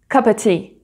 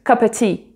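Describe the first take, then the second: First: The word 'of' is dropped in fast speech. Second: The same.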